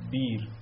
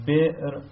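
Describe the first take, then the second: First: بیر said smoothly with a long i, no stop; بیر with the hamza turned into a long vowel; hamza softened to a long i. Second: بئر said with a clear hamza stop, higher and louder; بئر with a sharp glottal catch. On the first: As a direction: glide through بیر without the glottal catch. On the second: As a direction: stress the hamza break in بئر. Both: Shown as a demonstration.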